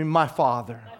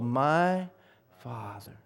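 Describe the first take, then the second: First: The words are said at a normal pace. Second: The words are said very slowly. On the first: The speaker calls it wrong. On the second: The speaker calls it right.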